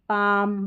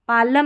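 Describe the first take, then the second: First: No L sound is heard before the M. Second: An L sound is heard before the M. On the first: The speaker calls it right. "एल को नहीं पढ़ते" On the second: The speaker calls it wrong. "पालम नहीं"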